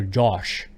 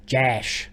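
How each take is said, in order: First: "Josh" with an open back O, pitched lower; Ohio pronunciation. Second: "Jash" with the vowel of "ash"; flat-A pronunciation. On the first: Imitating family down in Ohio, "Josh" with an open back vowel. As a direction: drop "Josh" low with a rounder, backer vowel. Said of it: "down in Ohio, they go". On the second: Imitating how relatives mock a friend's name, "Jash" with a front A. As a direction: say "Jash" with a short front A, like "cash". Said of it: "That's how you guys say it". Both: Retold or imitated.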